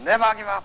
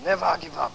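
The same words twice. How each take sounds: First: It is said very loudly, filling the hall. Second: It is said somewhat louder.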